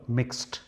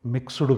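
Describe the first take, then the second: First: మిక్స్డ్ as "mikst", final d said as t; మిక్స్డ్ pronounced mikst, no extra vowel; right pronunciation. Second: మిక్స్డ్ as "miksudu" with an added u and a full d; wrong take: మిక్స్డ్ stretched to miksu-du; మిక్స్డ్ pronounced miksudu, as learners wrongly say; wrong pronunciation. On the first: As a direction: correct take: మిక్స్డ్ with a short clipped t ending. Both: Shown as a demonstration. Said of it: "ఇక్కడ డీని టీగా పలకాలి".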